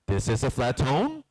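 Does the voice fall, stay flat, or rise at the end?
rise. The pitch rises at the end. "either you go up"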